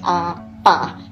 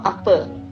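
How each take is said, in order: First: The word is said in the Sarawak way. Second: The word is said in the Semenanjung way. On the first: "kita pronounce as apa" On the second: "not apa. so the apa is the Semenanjung slang"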